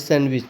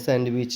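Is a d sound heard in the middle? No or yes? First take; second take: no; yes. First: The d sound is left silent in the middle. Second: The d sound is pronounced in the middle. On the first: The speaker calls it right. "फिर सैंडविच पढ़ते हैं" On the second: The speaker calls it wrong. "सैंडविच नहीं पढ़ते हैं ... अगर यहाँ पे डी का प्रोनाउंसिएशन करते तो गलत हो जाता है"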